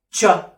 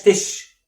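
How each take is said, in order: First: "تشا" as ch with a short open vowel; CH sound. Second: "تش" with no vowel after it; wrong CH demo. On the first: Teacher modelling the CH sound, ch plus short vowel. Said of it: "بنطقها تشا". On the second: Teacher warning learners off the wrong name, vowelless tish. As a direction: end "تش" on the bare consonants, like tish. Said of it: "ما اسمهاش تش". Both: Shown as a demonstration.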